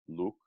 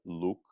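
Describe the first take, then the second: No difference in how they are said.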